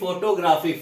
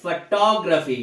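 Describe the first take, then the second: First: The stress is not on the second syllable. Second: The stress is on the second syllable. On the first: The speaker calls it wrong. "ना कि photography" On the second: The speaker calls it right. "ये है photography, फ के बाद टा पे थोड़ा सा उस पर जोर दिया जाए"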